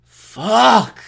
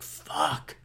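First: Loud, higher drawn-out swearing; exasperated curse. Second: Soft, drawn-out waking curse; groggy curse. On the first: Host acting out himself hearing the alarm, loud exasperated curse. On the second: Host acting out himself hearing the alarm, quiet groggy curse. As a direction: swear under your breath on waking. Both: Acted. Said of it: "I used to do that myself".

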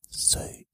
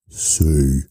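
First: Very soft whispered letter; no throat, only breath. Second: Said in the usual way. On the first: Shown as a demonstration. Demonstrating mouth-only speech, whispered. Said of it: "You use your mouth". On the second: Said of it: "You don't use your throat".

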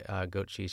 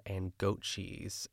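First: Said in the usual way. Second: Drawn-out goat cheese. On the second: Retold or imitated. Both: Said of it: "after she says goat che-, uh, goat cheese".

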